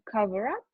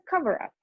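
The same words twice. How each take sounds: First: The stress falls on the word up. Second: The stress falls on the word cover. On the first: It is used as a verb. "when these are phrasal verbs, we stress the particle" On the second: It is used as a noun. "then we put the stress on the root of the verb"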